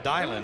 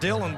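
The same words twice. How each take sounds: First: The name is said differently from its spelling. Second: The name is said the way it is spelled. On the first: The speaker calls it right. "but it's pronounced Dylan" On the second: The speaker calls it wrong. "it's spelled Dylan"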